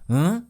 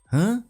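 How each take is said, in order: First: The pitch rises on the sound. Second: The same.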